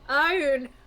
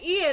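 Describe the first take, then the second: First: The name is said like 'Eye-oon'. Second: The name is said like 'Ee-an'. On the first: The speaker calls it right. "You are correct, it is not Ian" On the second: The speaker calls it wrong. "I keep wanting to say Ian"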